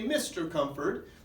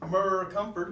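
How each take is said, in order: First: The title is said as the full word. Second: The title is sounded out from its letters. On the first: The speaker calls it right. "and so we say Mister Comfort" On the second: The speaker calls it wrong. "we don't sound out the abbreviation and say it that way"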